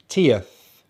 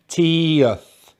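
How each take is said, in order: First: Said in the usual way. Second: "teeth" as two syllables, long tee plus uth; drawn-out pronunciation. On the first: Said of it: "which has two syllables". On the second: Shown as a demonstration. Teacher modelling the -tieth ending for learners, "teeth" drawn out as tee-uth. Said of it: "then we have the schwa and the T H".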